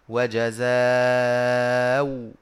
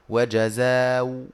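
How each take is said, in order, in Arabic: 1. تُمَد الحركة الأخيرة مدة متوسطة، نحو أربع حركات. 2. تُمَد الحركة الأخيرة مدة قصيرة، نحو حركتين. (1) "والتوسط" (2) "إبدالها واوا مع القصر"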